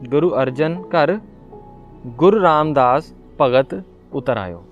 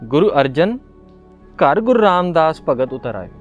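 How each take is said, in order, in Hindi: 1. विराम शब्द 'ghar' के बाद है। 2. विराम शब्द 'Arjan' के बाद है। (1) "गुरु अर्जन घर, फिर पॉज लगाऊं" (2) "गुरु अर्जन, पॉज देना"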